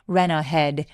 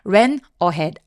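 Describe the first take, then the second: First: The two words are linked together smoothly. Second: The two words are said separately. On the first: The speaker calls it right. "연음 처리해서 ... 라고 이어주세요" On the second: The speaker calls it wrong. "ran ahead 아니고"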